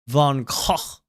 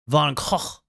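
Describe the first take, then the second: First: It is said the Dutch way, with throaty sounds. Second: The same.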